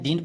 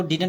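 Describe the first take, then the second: First: Didn't squeezed into one syllable, "deent"; contracted pronunciation. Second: Didn't broken into DID-unt; wrong pronunciation. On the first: Teacher repeats the reading to use, didn't as one-syllable "deent". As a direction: drop the second vowel of didn't. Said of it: "didn't पढ़ते हैं". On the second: Teacher repeats the reading to avoid, didn't as two-syllable DID-unt. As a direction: say didn't with an extra vowel before nt. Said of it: "इसको didn't नहीं पढ़ते हैं". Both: Shown as a demonstration.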